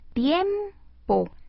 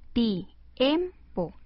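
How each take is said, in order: First: The i and e stay in one syllable. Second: The i and e are split into two syllables. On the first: The two vowels form a diphthong. The speaker calls it right. "Al dividirla, queda así" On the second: The two vowels are wrongly separated. The speaker calls it wrong. "Es incorrecto"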